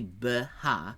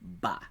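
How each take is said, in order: First: The two parts are said as separate syllables. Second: The two parts are merged into one syllable. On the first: The speaker calls it wrong. "you don't say b ha" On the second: The speaker calls it right. "squish them together and just say ba"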